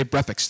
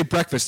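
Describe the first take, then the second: First: Breakfast said as breff-ekst, k and f swapped; breakfast with sounds swapped, breff-ekst; mispronounced breakfast. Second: Said in the usual way. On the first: Retold or imitated. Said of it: "They can't say breakfast. They say". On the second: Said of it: "who say breakfast".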